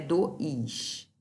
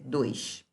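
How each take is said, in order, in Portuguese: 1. A palavra se divide em duas sílabas. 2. A palavra é falada em uma única sílaba. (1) "Essa palavra não tem duas sílabas. Não é dois" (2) "É dois"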